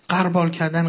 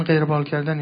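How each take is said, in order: First: «قربال» with a short a, qarbâl; wrong pronunciation. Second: «قربال» with a short e, qerbâl; correct pronunciation. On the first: Teacher citing the common mistake, «قربال» pronounced qar-. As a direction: say «قربال کردن» as qarbâl kardan. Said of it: "قربال غلط است". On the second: Teacher restating the term, «قربال» pronounced with kasre, qer-. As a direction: say «قربال کردن» as qerbâl kardan. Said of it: "کلمه با کسره". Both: Shown as a demonstration.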